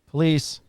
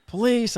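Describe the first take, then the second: First: Said in the usual way. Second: Higher, stronger call through the door. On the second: Retold or imitated. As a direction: announce yourself firmly this time. Knocking again on doors.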